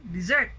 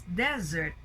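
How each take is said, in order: First: "desert" said dih-ZERT, rising; second-syllable stress. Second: "desert" said DEZ-ert; first-syllable stress. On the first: Teacher giving the verb to abandon, "desert" stressed on ZERT. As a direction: shift the weight to ZERT in "desert". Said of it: "But to abandon". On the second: Teacher naming the land, "desert" stressed on DEZ. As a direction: put the weight on DEZ in "desert". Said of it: "in the first one". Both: Shown as a demonstration.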